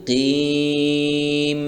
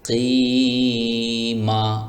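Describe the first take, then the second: First: The word ends on the m sound. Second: The word ends with a vowel after m. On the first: The reciter stops at this point. "Stop করলে হবে কিম" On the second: The reciter continues without stopping. "আর যদি আমরা স্টপ না করি তাহলে হবে কিমা"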